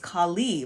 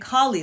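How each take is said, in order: First: The stress is on the second syllable. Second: The stress is on the first syllable. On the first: The speaker calls it right. "more of the emphasis on the Li" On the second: The speaker calls it wrong.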